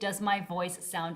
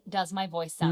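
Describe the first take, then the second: First: The voice sounds loud and crystal clear. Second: The voice sounds a bit muffled. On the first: The speaker calls it right. "Logitech actually has the best mics, offering loud and crystal clear audio" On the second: The speaker calls it wrong. "The Insta three sixty cams also sound a bit muffled"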